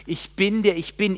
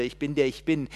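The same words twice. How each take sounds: First: Loud, high declaration; proclaiming God. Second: Said in the usual way. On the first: Acted. God declaring his name to Moses, loud. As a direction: proclaim it with full force. Same words proclaimed loudly.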